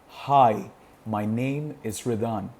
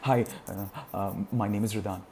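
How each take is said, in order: First: It is said calmly with short silent pauses. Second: It is broken up by hesitation sounds. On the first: The speaker is calm and confident. The speaker calls it right. "Chunking is all about making use of pauses, like the way I am speaking" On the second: The speaker is fumbling and unsure. The speaker calls it wrong. "rather than saying"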